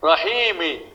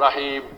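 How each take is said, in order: First: The word ends with a short 'i' vowel. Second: The word ends on the bare 'm' consonant. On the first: The reading continues without a stop. "মিমর শিকার মি" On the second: The reader stops at this word. "যখনই আপনি স্টপ করবেন তখন আপনাকে হস দিয়ে করতে হবে"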